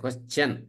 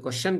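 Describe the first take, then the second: First: The ending is said as 'chun'. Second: The ending is said as 'shun'. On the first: The speaker calls it right. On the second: The speaker calls it wrong.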